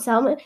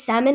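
First: "salmon" said as "sal-mon"; L sounded in salmon. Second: "salmon" said as "sammon"; no L sound in "salmon"; silent-L salmon. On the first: Retelling mother's version, "salmon" with a clear L. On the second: Retelling the son's correction, "salmon" as "sammon". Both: Shown as a demonstration. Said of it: "not salmon".

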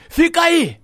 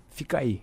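First: High, loud barked order; mimicked shouted command; retold boss's shout. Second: Said in the usual way. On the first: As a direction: yell it like a boss on the phone. Retold boss ordering him to stay.

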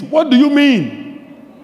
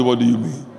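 First: What do you mean? slow, higher and louder, leaning on What; right way. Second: Flat, low, hurried What do you mean?; wrong way. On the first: Preacher showing the right way: slow emphatic What do you mean?. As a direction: stretch What do you mean? out, high and forceful. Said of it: "That's the way you say it". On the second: To the congregation, the wrong way: low flat What do you mean?. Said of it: "That's not how you say". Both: Shown as a demonstration.

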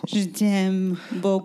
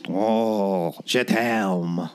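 First: French chef. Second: Whisper-sweet French lover; French chef. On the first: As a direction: sigh it like a French lover. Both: Pretend. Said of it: "this episode's accent".

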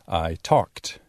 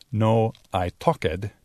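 First: "I talked" with "talked" ending in a crisp t; right way: "talked" ending in t. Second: Slow "I talked" with the e-d spoken as an extra syllable; wrong way: "talked" as talk-ed. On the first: ("I talked" bien dicho, terminando en t) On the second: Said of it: "pero I talked". ("talked" mal dicho, como talk-ed, despacio) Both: Shown as a demonstration.

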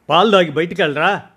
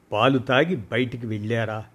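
First: Louder, higher, quick call after her son; mother calling to son to drink milk, fast and loud. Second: Said in the usual way. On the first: Acted. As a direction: call the boy back before he runs. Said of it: "అనే నా మాట పూర్తిగా వినిపించుకోకుండానే".

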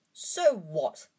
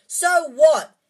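First: Said in the usual way. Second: Full shout, much higher and louder. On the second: A narrator's reading. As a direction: explode at friends. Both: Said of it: "Harry shouted".

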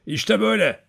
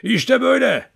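First: Put-on higher old man's voice before the howl; lightly voiced old man showing how; old man about to show his wolf howl, higher. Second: Much higher and louder, wolf howl voice; old man howls like a wolf to show the dogs' trick. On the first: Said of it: "ulumaya başladı". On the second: Acted. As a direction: howl it out like a wolf with hands cupped. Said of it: "kurt gibi ulumaya başladı".

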